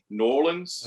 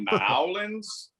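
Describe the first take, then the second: First: New is clipped to N, then Orlins. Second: It is squashed into two syllables, like Nawlins. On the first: "N apostrophe O R L I N S" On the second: "if you say Nowlands, we want to smack you immediately"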